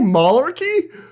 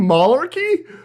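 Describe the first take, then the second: First: The word is said like 'malarkey'. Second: The same.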